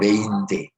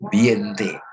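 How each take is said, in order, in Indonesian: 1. Suku kata pertama terdengar seperti 'bay'. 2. Suku kata pertama terdengar seperti 'bee'. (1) "Padahal yang betul Beinte ya" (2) "Ada yang nyebutnya Bie, Biente"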